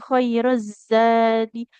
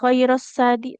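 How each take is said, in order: First: The consonant is a buzzing z sound. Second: The consonant is a hissing s sound. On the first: The speaker calls it right. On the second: The speaker calls it wrong.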